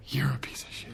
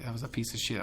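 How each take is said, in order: First: Breathy, hushed comeback; whispered retort. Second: Said in the usual way. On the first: Retold or imitated. Snapping back at friends who hated the movie, whispered. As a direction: whisper the insult back at them.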